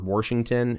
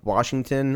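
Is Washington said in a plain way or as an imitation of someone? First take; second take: imitation; plain. First: The word is said imitating another person's pronunciation. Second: The word is said in the speaker's ordinary pronunciation. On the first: "if you're my father" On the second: "They're actually from Washington"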